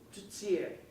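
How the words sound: The t in the middle sounds like ts. This is how it is said in Canada. "They also have a T that has that same Z with it"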